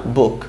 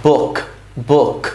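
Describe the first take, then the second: First: "বুক" with an unaspirated Bengali final k; "বুক" ending on a plain soft k; Bengali pronunciation. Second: "বুক" with a puffed kh sound at the end; English "book", ending "বুক" on an audible kh; English final k. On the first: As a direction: say "বুক" as the Bengali word, k not released in a puff. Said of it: "বাংলায় যে বুক আছে না". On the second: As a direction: release the last k of "বুক" as an aspirated kh. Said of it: "এরকম একটা উচ্চারণ দিয়ে শেষ হয়". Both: Shown as a demonstration.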